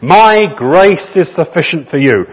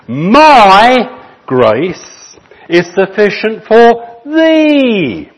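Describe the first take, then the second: First: Said in the usual way. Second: "thee" lifted high and held, slowly; stress on THEE. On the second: Shown as a demonstration. Spurgeon rereading his text, slow, with high stressed "thee". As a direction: draw out "My grace is sufficient" and land hard on "thee". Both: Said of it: "The emphasis on the end".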